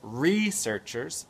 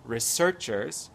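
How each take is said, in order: First: It is said with an American accent. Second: It is said with a British accent. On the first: "c'est en américain" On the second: "à l'anglaise"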